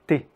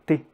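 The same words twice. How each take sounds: The two takes are said the same way.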